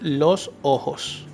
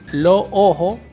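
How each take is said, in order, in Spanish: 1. El sonido de la S final se pronuncia. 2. El sonido de la S final se elimina. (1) "en vez de decir" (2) "Los costeños a veces se comen la, la S"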